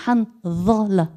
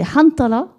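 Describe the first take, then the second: First: Handala, slow, the middle d said as an Arabic dha. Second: Hantala, a clear unvoiced t in the middle. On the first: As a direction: stretch out Handala, careful on the dha. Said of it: "avec un dha". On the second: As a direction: say Hantala reading the letter as ta. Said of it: "il peut servir pour le ta et le dha". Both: Shown as a demonstration.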